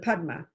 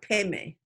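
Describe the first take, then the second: First: It is pronounced Padma, Sanskrit-style. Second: It is pronounced Peme, Tibetan-style.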